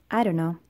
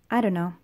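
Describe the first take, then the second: No difference in how they are said.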